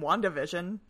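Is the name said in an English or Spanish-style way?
English. The name is said with a plain English accent. It sounds like a nerdy, silly title. The speaker calls it wrong. "which sounds like they're going to put on dorky glasses"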